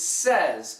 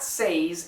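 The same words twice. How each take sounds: First: It is said like 'sez', short vowel. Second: It is said with a vowel unlike 'sez'. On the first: The speaker calls it right. "the phonetic spelling would be like S E Z" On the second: The speaker calls it wrong. "It's not says"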